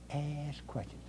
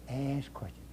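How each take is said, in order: First: Soft. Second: A whispered reminder; whispered repeat. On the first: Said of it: "repeated advice, then whispered". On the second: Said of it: "whispered repeat". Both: Shown as a demonstration.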